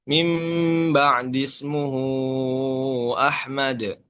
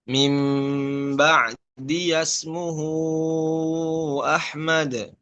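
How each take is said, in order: First: No 'ya' sound is heard after ba'di. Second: A 'ya' with an 'a' vowel follows ba'di. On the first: This is the reading of one transmission. "kalau di eh, riwayat Hafs" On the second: This is the reading of another transmission. "di Imam Syu'bah dengan membaca harokat fat fathah"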